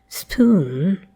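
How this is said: The vowel is further forward with loose rounding. This is a newer pronunciation. "a loosely rounded spoon"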